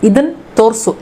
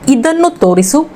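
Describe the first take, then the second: First: Both words are clipped with final and middle vowels dropped. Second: Both words are said fully with all vowels.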